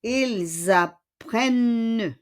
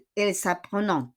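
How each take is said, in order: First: Slow "Ils apprennent", il-zapprenne with held N; teacher's corrected "Ils apprennent" with Z liaison; correct silent ending. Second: Quick "ils apprenant" ending in a nasal "on" sound; brisk mistaken "ils apprenant"; wrong ending. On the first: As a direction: draw out "Ils apprennent", ent left silent. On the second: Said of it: "Hindi siya ils apprenant. No". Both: Shown as a demonstration.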